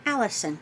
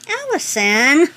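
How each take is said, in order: First: Said in the usual way. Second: Drawn-out, louder, rising call of the name; excited call. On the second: Real, not acted. Reading the sender's name, excited and louder.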